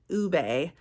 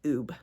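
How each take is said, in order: First: The word has two syllables, ending in a vowel. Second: The word has one syllable, ending in b. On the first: The speaker calls it right. "you pronounce it ube" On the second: The speaker calls it wrong. "instead of like oob"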